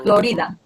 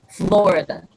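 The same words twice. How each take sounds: First: The stress falls on a later syllable. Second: The stress falls on the first syllable. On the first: "different pronunciation" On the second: "In English, we stress the O"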